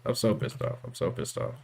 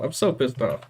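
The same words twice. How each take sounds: First: Hushed, seething whisper. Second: Said in the usual way. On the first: Real, not acted. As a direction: mutter it under your breath, fuming. Repeats the line in different ways.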